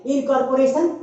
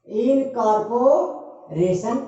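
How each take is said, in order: First: Said in the usual way. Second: incorporation slow, drawn out in separated chunks; broken into syllables. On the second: Shown as a demonstration. Teacher showing five syllables, incorporation split up slowly. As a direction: stretch incorporation with a gap before the ending. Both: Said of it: "इसमें पांच syllable है".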